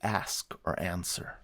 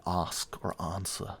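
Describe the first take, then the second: First: It is said in a North American accent. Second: It is said in a British accent. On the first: This is how the speaker actually talks. "I say" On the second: This is how the speaker does not talk. "my accent is not British. I don't say"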